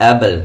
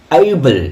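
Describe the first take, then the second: First: Able with a short flat "a", no glide; common wrong pronunciation. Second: Able as "EY-bul", long gliding first vowel; correct pronunciation. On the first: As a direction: say Able quickly as "ebble". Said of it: "আমরা কি বলি". (Able-এর ভুল উচ্চারণ, অ্যা-বল) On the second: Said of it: "কি উচ্চারণ". (Able-এর সঠিক উচ্চারণ, এই-বল টেনে) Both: Shown as a demonstration.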